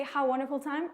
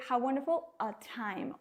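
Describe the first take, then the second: First: "How wonderful time." said as the learner's mistake, with no "a" before time and a light rise at the end; wrong form, no article. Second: "How wonderful a time," said with a clear "a" before "time" and a falling end; correct form with article. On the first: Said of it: "you say". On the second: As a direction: model the right phrase, giving the "a" its place. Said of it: "We say". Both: Shown as a demonstration.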